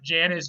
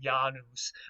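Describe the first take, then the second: First: The word begins with a J sound. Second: The word begins with a Y sound. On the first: This is how people commonly say it today. "Some people pronounce it Janus" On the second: This is how it was originally said. "original pronunciation would have been Janus, like that, with more of a Y sound than a J sound"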